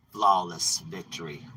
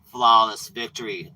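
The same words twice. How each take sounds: First: Low, slow announcer call; a hint of an arcade announcer; lightly voiced game announcer. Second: Punchy announcer call on Flawless; a touch of arcade announcer boom; lightly voiced game announcer. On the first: Demons gloat over another victim like an announcer. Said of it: "for them, they go". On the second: Demons gloat over another victim, announcer voice. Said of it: "They go".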